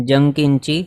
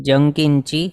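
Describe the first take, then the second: Both takes have the same delivery.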